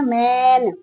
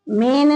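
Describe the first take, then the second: First: The vowel is an open 'ai' sound. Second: The vowel is a plain 'e' sound. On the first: The speaker calls it right. "ए की आवाज आ रही है ना" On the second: The speaker calls it wrong. "मेन नहीं"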